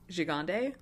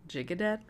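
First: The name is pronounced the French way. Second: The name is pronounced the English way. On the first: "super en français" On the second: "which doesn't sound right"

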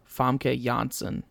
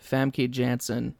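First: The name is said with a Scandinavian accent. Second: The name is said with an American English accent. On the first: "full, like, Scandinavian" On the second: "full American English"

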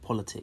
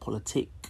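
First: The word has an ordinary English pronunciation. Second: The word has a Russian-style pronunciation. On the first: The speaker calls it wrong. "not politic" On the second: The speaker calls it right. "It's actually meant to be pronounced politic"

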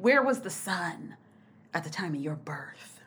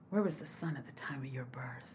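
First: It is said in a plain voice. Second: It is said in a put-on sexy voice.

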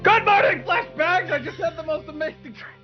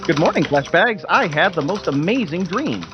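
First: It is said quietly but with much more intensity. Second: It is said quietly and fairly calmly.

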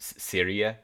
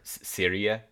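First: The R is pronounced the English way. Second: The same.

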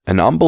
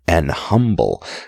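First: The H is dropped, like a Cockney accent. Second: A catch in the voice comes before 'humble'. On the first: "Or Cockney" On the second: "weird stop in the middle"

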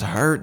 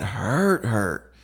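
First: The word is said plainly, without extra emphasis. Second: The word is said with strong, drawn-out emphasis. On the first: It hurt in an ordinary way. "that didn't just hurt" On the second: It hurt a great deal. "just with two different emphasis"

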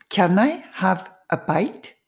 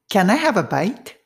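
First: The sentence is said slowly. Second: The sentence is said fast. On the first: "1 回目はちょっとゆっくり。" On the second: "3 回目はスピードアップして、"

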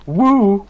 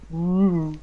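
First: It is loud, excited and pumped up. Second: It is soft, airy and floaty.

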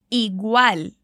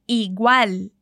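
No difference in how they are said.

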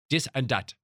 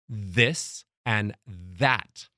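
First: The th sounds are said as hard d sounds. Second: The th sounds are said with the tongue between teeth. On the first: The speaker calls it wrong. "your THs are all dis and dat" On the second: The speaker calls it right. "just learn how to bite your tongue"

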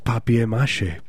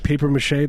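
First: The first word sounds like French 'papier'. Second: The first word sounds like English 'paper'. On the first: The speaker calls it right. "It's papier mâché" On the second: The speaker calls it wrong. "people say paper mâché. That's not the way you say it"

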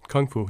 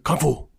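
First: It is said flatly, with little energy. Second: It is said loudly, with dramatic energy. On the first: The speaker calls it wrong. "you can't like very pragmatically go" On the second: The speaker calls it right. "You have to"

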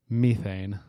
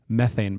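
First: The word is said in a British accent. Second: The word is said in an American accent.

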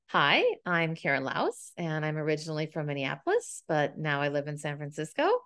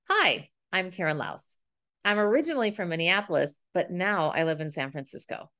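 First: The voice rises at the end like a question. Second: The voice falls at the end like a statement.

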